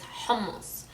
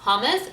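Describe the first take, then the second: First: The h sound at the start is emphasized. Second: The h sound at the start is plain. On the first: The speaker calls it right. "you have to emphasize your h sound" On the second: The speaker calls it wrong. "So it's not hummus"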